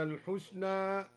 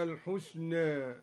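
First: Said in the usual way. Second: الحسنى with the final vowel between a and e, al-husne; taqlil. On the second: Shown as a demonstration. Teacher shows al-Duri's reduced imala. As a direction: soften the end of الحسنى halfway towards e. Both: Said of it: "قلل الحسنى هكذا".

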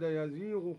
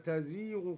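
First: Said in the usual way. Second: تزيغ starting with a ta, tazighu; feminine reading. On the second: Shown as a demonstration. Teacher shows the feminine verb reading. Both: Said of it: "قرأها بالتأنيث هكذا".

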